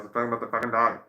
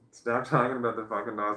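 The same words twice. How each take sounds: First: Much louder stern repeat, no laugh; now mean it, bark it out louder; mock scold. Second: Louder scold broken by a laugh. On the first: To herself about the sleeping dog, loud mock scold. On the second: Pretend. To herself about the sleeping dog, laughing scold. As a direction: scold yourself but crack up.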